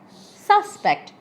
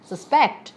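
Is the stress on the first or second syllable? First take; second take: first; second. First: The stress is on the first syllable. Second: The stress is on the second syllable.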